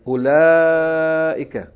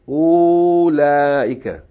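First: The first vowel is kept short. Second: The first vowel is drawn out long. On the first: The speaker calls it right. "It's pronounced short. U and then long" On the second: The speaker calls it wrong. "This word is not pronounced"

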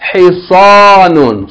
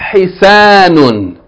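First: The s is a heavy, emphatic s sound. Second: The s is a plain, light s sound. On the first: The speaker calls it right. "This is Hisanun" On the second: The speaker calls it wrong. "This is not Hisanun"

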